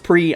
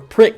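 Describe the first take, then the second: First: The word is said in its standard pronunciation. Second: The word is said the way it is spelled. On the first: "I know it's pronounced Prix" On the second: "if you read it like I do"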